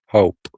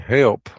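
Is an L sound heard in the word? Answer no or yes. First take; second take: no; yes. First: The word is said without an L, like hope. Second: The word is said normally with an L sound. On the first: This is how the creature said it. "she'd say hope" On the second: This is the usual way people say it. "like we say it"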